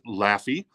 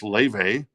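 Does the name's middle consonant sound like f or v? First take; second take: f; v. First: The name is said with an f sound. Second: The name is said with a v sound. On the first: The speaker calls it wrong. "Some might pronounce it Laffy" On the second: The speaker calls it right. "but it's pronounced Leve"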